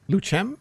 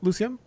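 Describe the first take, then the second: First: The C is said as 'ch'. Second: The C is not said as 'ch'. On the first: "pronounce it like C as in C H" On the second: "Is that how I pronounce your name?"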